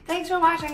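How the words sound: It is said in a put-on character voice. The speaker calls it wrong.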